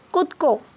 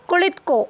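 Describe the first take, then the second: First: The word is shortened to two syllables. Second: The word is said in full, three syllables.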